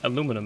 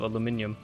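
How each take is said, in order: First: The word is said with four syllables. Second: The word is said with five syllables. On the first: This is the American form. "in American they just kind of like omit one of the syllables" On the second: This is the non-American form. "instead of aluminium"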